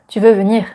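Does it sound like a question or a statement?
statement. It is said with a plain statement intonation. It states that the listener wants to come. "the simple sentence would be"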